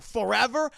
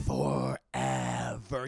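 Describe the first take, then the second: First: High, loud rising disbelief; startled question. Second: Very low, drawn-out growly doom; ominous Beast. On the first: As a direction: question it in a higher, mock-shocked voice. Belle questions the sentence. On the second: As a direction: draw it out deep and slow like a monster. Beast pronounces the life sentence. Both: Retold or imitated.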